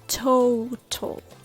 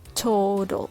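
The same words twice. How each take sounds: First: The middle consonant is a clear T sound. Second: The middle consonant is a soft D sound.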